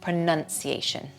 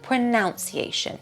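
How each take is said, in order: First: The second syllable sounds like 'nun'. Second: The second syllable sounds like 'nounce'. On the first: The speaker calls it right. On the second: The speaker calls it wrong.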